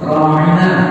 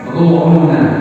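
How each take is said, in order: First: The vowels are open, sounding like ra-i-na. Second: The vowels are rounded, sounding like ro-u-na. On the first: A polite request for attention. "mereka biasa mengatakan, Ya Rasulullah, ra'ina" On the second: A hidden insult meaning foolishness. "cara mengucapkannya sedikit dibelokkan. Mereka mengucapkan ro'una"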